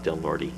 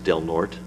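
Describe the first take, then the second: First: The name is pronounced the tourist way. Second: The name is pronounced the local way. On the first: The speaker is an outsider. The speaker calls it wrong. "not Del Norte" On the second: The speaker is from the area. The speaker calls it right. "one way we tell whether a person is local or a tourist is it's Del Norte"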